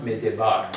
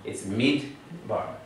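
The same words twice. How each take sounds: First: "Midday bar" split as midday plus bar, the wrong way; wrong syllable split. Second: "mid" then a glottal stop, then "bar"; "It's mid bar" with a clean stop after "mid"; closed syllable. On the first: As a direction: say "Midday bar" as two words, mid-day then bar. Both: Shown as a demonstration. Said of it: "It's not sounded as midday".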